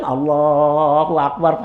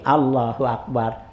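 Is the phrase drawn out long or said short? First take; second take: long; short. First: The phrase is drawn out long. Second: The phrase is said short and quick.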